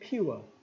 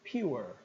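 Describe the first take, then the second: First: British accent with the final R dropped. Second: American accent with the final R pronounced. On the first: "se eu for britânico eu diria pure" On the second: "se eu for americano eu vou dizer pure"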